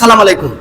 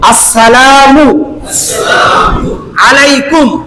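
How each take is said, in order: First: The greeting begins directly with a 'sa' sound. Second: The greeting begins with a full 'as-sa' sound. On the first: A wish of death upon the listener. The speaker calls it wrong. "অনেকে আমরা সালাম দেই সালাম আলাইকুম" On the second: A wish of peace upon the listener. The speaker calls it right. "শুদ্ধ একটা সালাম"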